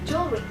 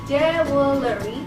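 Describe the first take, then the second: First: No vowel is pronounced after the L. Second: An extra vowel is pronounced after the L. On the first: The speaker calls it right. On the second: The speaker calls it wrong.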